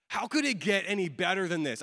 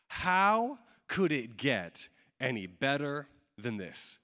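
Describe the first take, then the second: First: Said in the usual way. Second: Drawn out word by word, dropping away at the end; slow wondering question. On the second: Acted. Preacher voicing a disciple's question to himself, slow and deliberate. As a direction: let each word hang, sink on the last.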